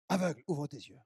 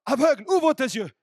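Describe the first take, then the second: First: Lower, soft, hushed call; a soft, hushed echo of the divine order; quiet command. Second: Loud, high proclamation; booming command to the blind; loud divine command. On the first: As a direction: murmur it like an inner voice. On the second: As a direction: call it out over the crowd. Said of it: "et j'entends". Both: Acted.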